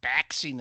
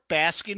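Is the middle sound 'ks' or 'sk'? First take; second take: ks; sk. First: The middle has a k then s sound. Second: The middle has an s then k sound. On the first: The speaker calls it wrong. "You're not baxing in the sun" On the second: The speaker calls it right. "you're basking in the sun"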